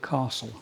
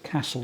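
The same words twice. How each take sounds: First: It is said in a southeast English accent. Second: It is said in a different, non-southeast English accent. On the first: This is how the speaker was taught to speak. "I say castle. Can't help it" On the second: This is how most other people say it. "they say castle"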